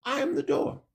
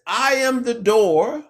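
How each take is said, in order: First: I am the door repeated higher and much softer; soft echo. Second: I am the door, drawn out slowly with a rise on I; slow emphatic quote. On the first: Preacher echoing the Messiah's words to the congregation, softly. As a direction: let the second I am the door fall away to near a hush. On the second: Preacher to congregation, quoting the Messiah slowly. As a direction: lay down I am the door slowly as scripture. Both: Acted.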